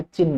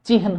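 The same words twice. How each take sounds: First: चिन्ह said chinn, long n, no h sound; wrong doubled n. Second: चिन्ह said chi-han, h before n; correct h before n. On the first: Teacher showing the exam mistake, चिन्ह said chinn. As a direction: drop the h and hold the n in चिन्ह. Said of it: "चिन्ह नहीं होता". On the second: Teacher giving the exam form, चिन्ह said chi-han. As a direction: sound the h ahead of the n in चिन्ह. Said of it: "चिन्ह होता है". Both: Shown as a demonstration.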